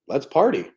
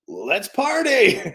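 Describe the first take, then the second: First: It is said in a bored tone. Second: It is said in an excited tone.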